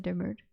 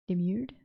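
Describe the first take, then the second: First: Demurred, ending to rhyme with "bird"; demurred with -URD. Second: Demurred with a "myoo" glide in the second syllable; Demurred as de-MYURED. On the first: Narrator reading Alyssa's reply, demurred pronounced de-MURD. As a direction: say demurred with an r-coloured second syllable. Narrator tries the word two ways. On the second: Narrator doubting the word just read, Demurred pronounced de-MYURED. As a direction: query it, saying Demurred like "de-MYOORD". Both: Shown as a demonstration.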